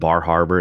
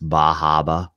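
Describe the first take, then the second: First: The R sounds are clearly pronounced. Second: The R sounds are dropped entirely. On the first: "instead of" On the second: "they say don't pronounce the R's up there"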